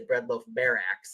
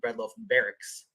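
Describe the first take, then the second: First: The last word ends with an extra 'ez' syllable. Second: The last word ends plainly in a 'ks' sound. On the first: The speaker calls it right. "it sounds better if you say bread loaf barracks" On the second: The speaker calls it wrong. "instead of bread loaf barracks"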